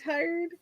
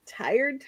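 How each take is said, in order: First: Tired said high and soft, drawn out; odd tired. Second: Said in the usual way. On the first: Shown as a demonstration. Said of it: "It's that weird".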